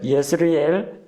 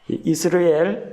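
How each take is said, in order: First: The name begins with a 'ye' sound. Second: The name begins with an 'ee' sound. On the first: "예라고 읽기도 하고 그래서 예스라엘이라고 읽기도 합니다" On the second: "이스라엘이라고 부르기도 하고"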